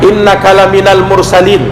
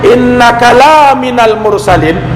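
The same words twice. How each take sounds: First: The vowel after the L is short. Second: The vowel after the L is long. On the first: You are truly one of the messengers. The speaker calls it right. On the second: You are not one of the messengers. The speaker calls it wrong.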